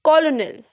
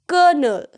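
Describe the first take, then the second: First: It sounds like colo-nel, following the spelling. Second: It sounds like kernel, with an R sound. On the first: The speaker calls it wrong. "Most of us pronounce it wrong by saying colonel" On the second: The speaker calls it right. "कर्नल, के ई आर"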